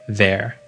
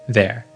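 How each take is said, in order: No difference in how they are said.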